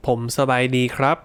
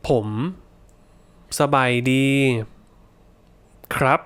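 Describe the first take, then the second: First: Said in the usual way. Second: Slow, each syllable separated by pauses. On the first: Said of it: "and then normally". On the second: Shown as a demonstration. Teacher modelling the slow version for learners. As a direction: break it into slow separate words. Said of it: "we'll do it slowly, and then normally".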